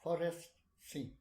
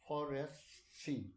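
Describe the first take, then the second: First: Forest scene said louder and clearer. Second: Forest said through missing front teeth; lisping forest from missing teeth. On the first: Shown as a demonstration. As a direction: carefully sound out Forest scene. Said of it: "You see?". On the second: Real, not acted. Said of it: "my teeth are missing".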